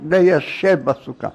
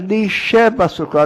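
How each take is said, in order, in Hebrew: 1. המילה הראשונה מתחילה בצליל 'lei'. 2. המילה הראשונה מתחילה בצליל 'li' קצר. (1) "לא" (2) "כי יש שם למד יוד, שין בית. לישב, כמו לישועתך"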